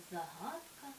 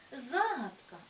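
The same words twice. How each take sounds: First: ЗагАдка, stress on the second syllable Га, said softly; lower, softer take of загадка; second stress variant. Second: Загадка, stress on the first syllable За; firm take of загадка on the first syllable; first stress variant. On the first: (другий варіант: загАдка) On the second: (перший варіант: Загадка) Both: Shown as a demonstration. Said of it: "які мають подвійний наголос".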